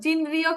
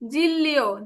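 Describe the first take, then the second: First: The middle consonants sound like n then r. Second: The middle consonants sound like a double l. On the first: The speaker calls it wrong. "জিনরিও কিন্তু হবে না" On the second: The speaker calls it right. "উচ্চারণ হবে জিল্লিও"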